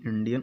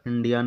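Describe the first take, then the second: First: The last syllable's vowel is short, nearly silent. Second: The last syllable has a full 'aa' vowel. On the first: The speaker calls it right. "छिपा होता है, दिखता नहीं है" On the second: The speaker calls it wrong. "इंडियन नहीं"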